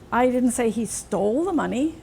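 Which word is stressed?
stole. The word 'stole' carries the main stress. He may have only borrowed it. "Maybe he just borrowed it"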